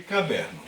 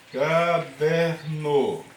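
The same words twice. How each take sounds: First: Said in the usual way. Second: "Caderno" drawn out very slowly in three syllables, ca-der-no. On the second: Shown as a demonstration. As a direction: stretch each syllable of "Caderno" for a class. ("Caderno" bem devagar, separando as sílabas: ca-der-no) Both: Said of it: "Tem três sílabas".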